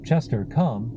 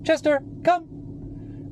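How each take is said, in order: First: It is said in a flat, monotone voice. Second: It is said high-pitched and enthusiastically. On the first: "I didn't say" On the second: "these high-pitched, uh, more enthusiastic tones of voice"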